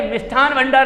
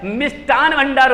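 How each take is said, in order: First: मिष्ठान with aspirated TH before भंडार; wrong form. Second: मिष्ठान with unaspirated T before भंडार; correct form. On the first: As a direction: cite "mishTHaan" for मिष्ठान as the error. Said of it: "मिष्ठान भंडार नहीं होता है". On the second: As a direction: say "mishTaan" for मिष्ठान. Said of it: "ये शुद्ध होता है". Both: Shown as a demonstration.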